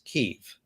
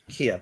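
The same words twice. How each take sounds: First: The name is said the Ukrainian way. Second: The name is said the anglicized way. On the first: This is how the locals say it. The speaker calls it right. "the way how we pronounce it, and that's the right way to pronounce it too" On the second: This is how English speakers adapted it. The speaker calls it wrong. "and not"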